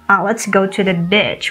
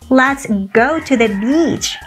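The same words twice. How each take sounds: First: The vowel in 'beach' is short. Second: The vowel in 'beach' is long. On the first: The speaker calls it wrong. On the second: The speaker calls it right.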